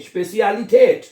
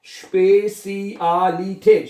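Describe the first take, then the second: First: Said in the usual way. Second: स्पेसियालिटेट slowly, every vowel stretched; स्पेसियालिटेट as slow "shpay-see-aah-lee-tate"; broken into syllables. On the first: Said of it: "क्या लफ्ज बनेगा". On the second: Shown as a demonstration. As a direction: sound out स्पेसियालिटेट piece by piece. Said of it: "लफ्ज को तोड़ लें".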